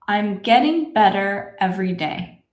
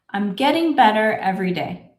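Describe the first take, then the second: First: The sentence is spoken very slowly. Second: The sentence is spoken slowly. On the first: "Let's say this together slowly" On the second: "A little bit faster"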